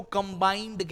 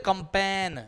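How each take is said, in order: First: "कंबाइंड" with B, long "ai" and final D; correct pronunciation. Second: "कंपेन" with P for B and no final D; common mispronunciation. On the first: Shown as a demonstration. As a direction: say "कंबाइंड" in full, as "kam-baaind". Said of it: "उसको कंबाइंड कहते हैं।". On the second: Retold or imitated. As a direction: imitate people saying "kam-pain" for "कंपेन". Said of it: "लोग कहते हैं कंपेन।".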